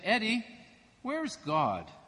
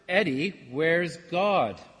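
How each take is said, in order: First: It is said at a normal, quieter level. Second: It is said somewhat louder.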